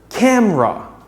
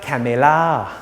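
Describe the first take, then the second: First: The word is said with only two syllables. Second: The word is said with three full syllables. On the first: The speaker calls it right. "try pronouncing it as two syllables" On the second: The speaker calls it wrong. "It's not camera"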